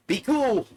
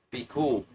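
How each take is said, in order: First: High, loud outburst; sudden high yell for calm; acted yell. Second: Said in the usual way. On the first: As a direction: shout it, pitched way up. Repeats it as a yell.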